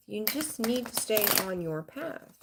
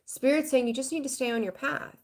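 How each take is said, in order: First: Slow it down and drive the message home; slower emphatic repeat. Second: Said in the usual way. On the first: Shown as a demonstration. Repeating the spirit message to viewers, slow and emphatic. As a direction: repeat it slower and quieter so it lands.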